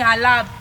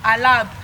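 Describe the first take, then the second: First: The name is clipped, dropping the final vowel. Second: The name is clipped, dropping the final vowel.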